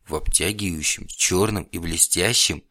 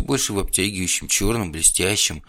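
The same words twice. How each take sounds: First: Slow, savoured questioning repeat; intrigued echo. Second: Said in the usual way. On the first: A narrator's reading. Alisa echoes the description of vampire clothes, slowly intrigued. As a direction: linger on чёрном, stretching it out slowly.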